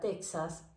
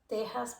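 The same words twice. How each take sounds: First: The x sounds like ks. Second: The x sounds like a throaty h. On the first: This is how most countries say it. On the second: This is how one region of Mexico says it.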